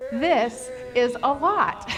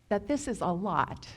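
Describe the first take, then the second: First: This is a lot, drawn out and stressed on lot; a heavy, slow this is a lot; slow emphatic mantra. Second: Said in the usual way. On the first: Shown as a demonstration. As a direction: say it slowly, leaning on lot. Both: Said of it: "Say it with me".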